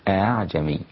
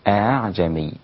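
Both takes have the same delivery.

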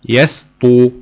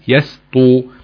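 Both takes have the same delivery.

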